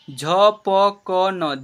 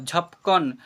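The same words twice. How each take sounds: First: "झपकन" slowly as झ, प, क, न; letter by letter. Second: Said in the usual way. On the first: Shown as a demonstration. Teacher sounding out "झपकन" for learners, letter by letter. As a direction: stretch "झपकन" into four syllables, each vowel held. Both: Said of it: "क्या लिखा हुआ है?".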